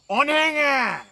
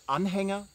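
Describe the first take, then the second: First: It is said in a Franconian regional pronunciation. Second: It is said in standard German pronunciation. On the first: "with the Franconian pronunciation Anhänger" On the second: "not with the German word Anhänger"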